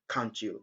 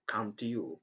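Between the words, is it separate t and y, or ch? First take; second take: ch; separate. First: The t and y merge into ch. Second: The t and y sounds stay separate. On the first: The speaker calls it right. "just say ... the best pronunciation and the right pronunciation" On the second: The speaker calls it wrong. "instead of saying"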